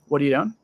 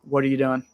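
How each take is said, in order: No difference in how they are said.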